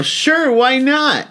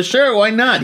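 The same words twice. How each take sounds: First: High, slow, breezy shrug of a reply; casual shrug. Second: High breezy repeat of the shrug; casual shrug. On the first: Comic answering a Sony man, high drawn-out shrug. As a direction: toss it off like it's nothing. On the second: Comic repeating his shrug to the Sony man, breezy. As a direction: brush it off, light and high. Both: Retold or imitated.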